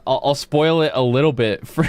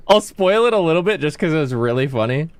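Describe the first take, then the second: First: Words breaking into a laugh. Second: Said in the usual way. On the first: Real, not acted. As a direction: spoil it while giggling. Laughing mid-sentence, then restarts.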